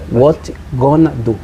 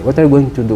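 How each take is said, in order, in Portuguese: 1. A frase é reduzida a três palavras. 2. Cada palavra da frase é dita por inteiro.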